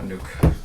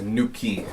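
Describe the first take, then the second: First: The name ends with a k consonant sound. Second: The name ends with an ee vowel sound. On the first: The speaker calls it wrong. "not Nuke" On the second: The speaker calls it right. "his name is Nuki"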